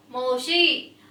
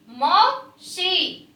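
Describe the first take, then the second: First: Said in the usual way. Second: मौसी drawn out very slowly, syllable by syllable; slow sounding out. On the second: Shown as a demonstration. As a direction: stretch मौसी slowly for the class. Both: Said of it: "आप भी बेटा साथ साथ बोलेंगे".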